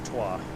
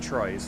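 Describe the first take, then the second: First: The word is said with French sounds. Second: The word is said with English sounds. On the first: The speaker calls it right. "I do know it's Trois" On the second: The speaker calls it wrong. "not Troyes"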